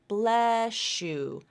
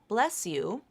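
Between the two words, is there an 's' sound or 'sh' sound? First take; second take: sh; s. First: The s and y merge into an sh sound. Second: An s sound is followed by a separate y. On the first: "you'll hear sometimes people will say" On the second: "You don't have to link it with this assimilation"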